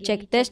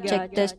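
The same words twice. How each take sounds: First: The voice has a medium echo. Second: The voice has a heavy echo. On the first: "Ini arah jam dua belas, echonya kayak gini" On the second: "Terus ini echo di arah jam tiga"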